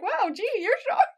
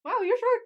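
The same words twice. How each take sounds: First: Mock surprise. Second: High, bright fake astonishment; mock surprise. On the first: Fan replaying the line, high hammed-up amazement. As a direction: marvel at it, wide-eyed. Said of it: "I'm just like". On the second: Fan imitating the character, high mock surprise. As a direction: act amazed at how short he is. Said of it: "It's just surprised".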